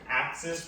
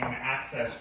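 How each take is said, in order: First: The second syllable sounds like 'sis'. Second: The second syllable sounds like 'sess'. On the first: "It's much worse that I grew up calling an access road an axis road" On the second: "calling an access road"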